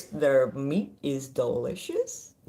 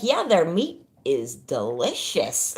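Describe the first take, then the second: First: Slow deadpan quote. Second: Deadpan guy, laughing. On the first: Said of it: "I'm gonna have to say this". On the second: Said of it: "He's like". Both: Retold or imitated.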